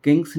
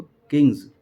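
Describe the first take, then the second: First: किंग्स ending on a hissing s, the wrong way; गलत स वाली ध्वनि में किंग्स. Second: किंग्स ending on a voiced buzzing z, louder; ज़ की ध्वनि के साथ किंग्स; z sound ending. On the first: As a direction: say किंग्स with a plain s at the end. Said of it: "किंग्स नहीं बोलेंगे इसको". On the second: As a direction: correct it: किंग्स with a clear z. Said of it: "जेड की sound आएगी". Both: Shown as a demonstration.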